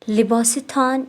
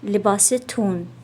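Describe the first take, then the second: First: The last vowel is a long 'aa' sound. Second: The last vowel is a long 'oo' sound. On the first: This is the written form. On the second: This is the spoken form.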